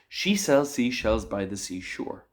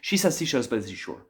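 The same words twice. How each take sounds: First: The sentence is said somewhat quickly. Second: The sentence is said as fast as possible. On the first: "I'm going to say it again a little bit faster" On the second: "now let's do it as fast as I can"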